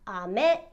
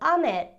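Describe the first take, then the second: First: The second syllable ends on a high pitch. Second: The second syllable ends on a low pitch. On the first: It means candy. "where me ends on a higher note" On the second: It means rain. "where me ends on a lower note"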